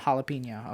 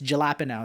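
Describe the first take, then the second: First: It is said with a Spanish-style pronunciation. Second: It is said with an English-style pronunciation. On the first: This is the original Spanish way. "It's not" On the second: This is the accepted American way. "we're in America. It's"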